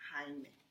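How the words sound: The name is said with a Spanish pronunciation. "In Espanol, I will pronounce it Jaime"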